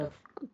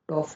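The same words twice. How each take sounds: First: "टफ" with short uh, softly; correct short vowel. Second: "टफ" misread as "tawf"; rejected AW vowel. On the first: Teacher answering the own question, "टफ" softly with short uh. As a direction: say "टफ" as tuff, dropped soft. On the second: Teacher questioning a spelling-based reading, "टफ" as tawf. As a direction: say "टफ" with a rounded o, like "टॉफ". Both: Shown as a demonstration. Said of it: "टफ क्यों नहीं बोलते".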